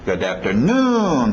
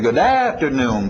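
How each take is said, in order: First: The beat falls on the very last syllable. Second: The beat falls before the end of the phrase. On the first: The speaker calls it right. "papapá, e batendo lá no finalzinho" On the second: The speaker calls it wrong. "A tendência vocês vão querer dizer good afternoon, param papam"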